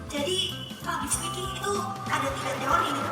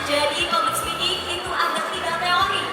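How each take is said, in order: First: The voice sounds hesitant, nervous and shaky. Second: The voice sounds steady, sure and confident. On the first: The listeners would not believe the speaker. The speaker calls it wrong. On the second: The listeners would believe the speaker. The speaker calls it right.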